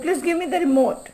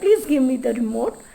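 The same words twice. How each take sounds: First: It is said as a firm command. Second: It is said as a polite request.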